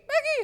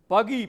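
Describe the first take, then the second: First: A shallow voice not from the belly. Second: A full voice pushed from the belly. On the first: The speaker calls it wrong. "itu bukan suara perut" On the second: The speaker calls it right. "Pakai suara perut. ... Dari bawah sini nih"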